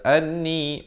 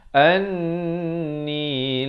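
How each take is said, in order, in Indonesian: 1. Vokal akhir tetap dibaca pendek. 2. Vokal akhir dibaca panjang. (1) "Jangan kita baca anni, anni, itu salah" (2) "Yang betulnya anni la, dibacakan empat atau lima harakat"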